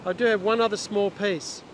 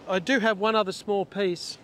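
The two takes are said the same way.

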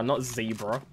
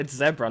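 First: Zebra said as "ZEE-bra"; long-vowel zebra. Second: Zebra said as "ZEB-ra"; short-vowel zebra. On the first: Player mocking the wrong way, zebra as "ZEE-bra". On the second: Player correcting friend, zebra as "ZEB-ra". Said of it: "How do you say zebra". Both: Shown as a demonstration.

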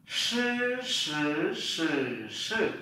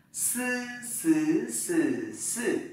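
First: "Sư" as a hushing sh with curled tongue, in four tones; retroflex sh. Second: "Sư" with plain hissed s, through high, rising, dipping, falling tones; Mandarin s syllable. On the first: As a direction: curl the tongue on "sư", one tone per take. (đọc "sư" cuộn lưỡi kiểu SH, bốn thanh) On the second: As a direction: drill "sư" tongue flat, one tone per take. (đọc "sư" âm S thẳng lưỡi, bốn thanh) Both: Shown as a demonstration. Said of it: "chúng ta làm lại lần nữa".

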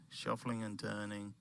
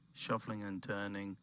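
No difference in how they are said.

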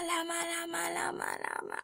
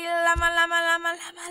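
First: Llama, llama chanted higher, dropping to a whisper; silly outro chant trailing off to a whisper; fading llama chant. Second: Goofy higher sing-song llama chant. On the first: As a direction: let the llama, llama chant die away into a whisper. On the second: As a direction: chant llama, llama brightly like a silly outro jingle. Silly chant ending the video. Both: Pretend.

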